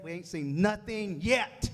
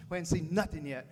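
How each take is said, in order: First: Slow and punchy, rising at the end on yet; slow rising rally to the crowd; slow, drawn-out emphasis. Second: Said in the usual way. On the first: Real, not acted. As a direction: stretch it out to rally the room. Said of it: "repeated rallying line, slowed and drawn out". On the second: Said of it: "repeated rallying line, first take".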